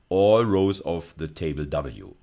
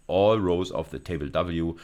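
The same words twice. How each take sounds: The two takes are said the same way.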